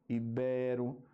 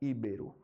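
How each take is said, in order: First: The first syllable is not stressed. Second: The first syllable is stressed. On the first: The speaker calls it right. "o correto, a acentuação correta" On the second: The speaker calls it wrong. "muita gente fala íbero ... assim como rúbrica"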